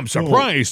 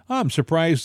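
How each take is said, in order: First: It is said in an agitated, emotional tone. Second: It is said in a calm, even tone. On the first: It is an irrational, upset outburst. "make him sound like he said it irrationally, you know, emotionally" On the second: It is a rational, innocent remark. "an innocent, calm, very rational comment"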